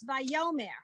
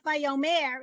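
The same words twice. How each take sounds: First: The stress falls on the middle syllable. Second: The stress falls on the last syllable. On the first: The speaker calls it right. "in fact, it's on the yo" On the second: The speaker calls it wrong. "So it's not Vayomer"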